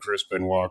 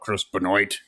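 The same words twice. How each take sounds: First: The surname is said in a French style. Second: The surname is said just as it is spelled.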